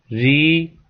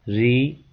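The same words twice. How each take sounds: First: री with the vowel held long. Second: री with a short, brief vowel. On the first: Teacher showing students the letters, long drawn-out री. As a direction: draw out the long री. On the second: Teacher showing students the letters, short री. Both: Shown as a demonstration. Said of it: "छोटी री और बड़ी री".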